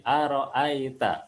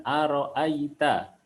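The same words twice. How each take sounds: First: "aro'aita" with the I slackened to E; faulty E sound in place of I in "aro'aita"; imperfect kasrah. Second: Slow "aro'aita" with a clear I in "ai"; measured "aro'aita", the I fully formed; correct kasrah. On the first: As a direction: let "aro'aita" slip into "aro'aeta". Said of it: "tidak sempurna sering berubah menjadi". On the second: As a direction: spread the lips for a full I in "aro'aita". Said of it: "ketika tidak sempurna sering berubah". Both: Shown as a demonstration.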